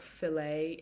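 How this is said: The word is said the American way. "fillet in America"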